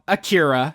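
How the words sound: The name is said in an American accent.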